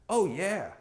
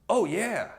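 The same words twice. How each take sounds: Both takes have the same delivery.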